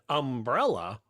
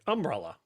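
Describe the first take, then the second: First: The stress is on the middle syllable. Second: The stress is on the first syllable. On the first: The speaker calls it right. "I should have said umbrella" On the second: The speaker calls it wrong. "and I'm like umbrella"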